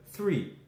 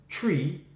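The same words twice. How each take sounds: First: Said in the usual way. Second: TREE with a hard T in place of TH; TREE, the Irish way, T replacing TH. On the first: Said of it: "instead of three". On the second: Shown as a demonstration. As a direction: say TREE with a plain T at the front. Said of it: "They too will say tree".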